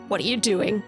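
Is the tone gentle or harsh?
harsh. It sounds harsh and accusing.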